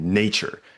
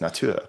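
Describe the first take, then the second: First: The stress is on the first syllable. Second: The stress is on the last syllable. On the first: "first syllable initial" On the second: "It's it's got this kind of final syllable stress"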